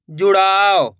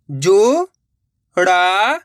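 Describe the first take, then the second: First: Said in the usual way. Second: जुड़ाव stretched slowly, rising at the end; drawn-out syllables. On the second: Shown as a demonstration. Teacher sounding out a word for children, very slowly. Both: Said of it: "direct मात्रा का उच्चारण करके पढ़ेंगे".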